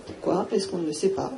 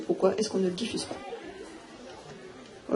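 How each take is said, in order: First: Said in the usual way. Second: Breathy slow whisper, drawn out. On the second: Real, not acted. A speaker asks the audience why, in a slow whisper. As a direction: drop to a slow pointed whisper. Rhetorical question dropped to a whisper.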